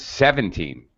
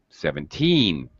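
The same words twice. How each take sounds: First: The final syllable is not stressed. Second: The final syllable is strongly stressed. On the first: The speaker calls it wrong. "the way you said it" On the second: The speaker calls it right. "you need to very strongly emphasize the last syllable teen"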